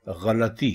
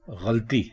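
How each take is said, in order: First: गलती as ghalati, three syllables; गलती with a after l, ghalati; correct pronunciation. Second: गलती as ghalti, two syllables; गलती with l cluster, ghalti; common pronunciation. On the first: Teacher gives correct गलती, ghalati. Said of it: "दुरुस्त लफ्ज़ है". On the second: Teacher shows the common गलती, ghalti. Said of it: "हम लोग इसको बोलते हैं". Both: Shown as a demonstration.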